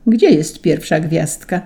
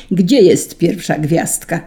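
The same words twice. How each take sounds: First: Said in the usual way. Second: Understated shout; shouted question. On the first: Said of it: "spojrzał na niego podejrzliwie". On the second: A narrator's reading. Saint Peter at the end of his patience, mild shout. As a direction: demand it with a touch of a shout. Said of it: "krzyknął i to tak, że całe niebo".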